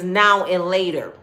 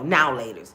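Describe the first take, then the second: First: The middle word 'and' is clearly said. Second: The middle word 'and' is left out. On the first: The speaker calls it right. "It's now and later" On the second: The speaker calls it wrong.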